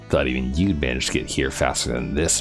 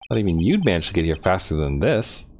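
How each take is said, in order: First: It is said in Prosecutor Godot's voice. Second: It is said in a mismatched character voice.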